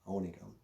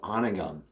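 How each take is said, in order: First: The first O is a long vowel. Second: The first O is a short vowel. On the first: The speaker calls it right. "he pronounced it the correct way" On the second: The speaker calls it wrong. "Grandpa, it's called"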